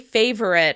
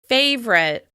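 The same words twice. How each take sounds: First: A short vowel is heard before the r sound. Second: No vowel is heard before the r sound. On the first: "with a schwa sound before that r" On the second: "when I say favorite, it's just two syllables long"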